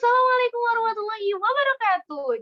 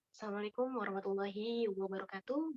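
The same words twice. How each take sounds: First: It is said in a high, loud voice. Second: It is said in a low, soft voice. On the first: The speaker calls it wrong. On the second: The speaker calls it right.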